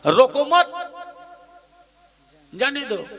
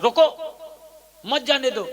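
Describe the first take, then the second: First: Comma after मत, जाने दो on its own; pause after मत. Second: रोको rising alone, long pause, then मत जाने दो; pause after रोको. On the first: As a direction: join रोको मत rising, then let जाने दो fall. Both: Shown as a demonstration. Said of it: "अब अल्प विराम ला मत में लेक लगा देता हूँ".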